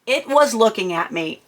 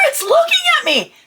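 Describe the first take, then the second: First: Said in the usual way. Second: Much higher frantic wail; incoherent panic. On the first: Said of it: "narrating the goat calmly". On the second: Retold or imitated. Telling husband the goat stares, terrified wail. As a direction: cry it out in terror. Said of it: "I apparently wasn't being coherent".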